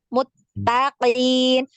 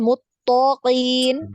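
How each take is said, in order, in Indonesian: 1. Bunyi t itu tipis dan ringan. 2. Bunyi t itu tebal dan berat.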